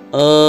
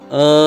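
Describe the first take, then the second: No difference in how they are said.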